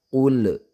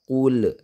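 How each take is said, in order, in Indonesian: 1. Huruf L terakhir berakhir dengan pantulan gema. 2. Huruf L terakhir berakhir dengan pantulan gema.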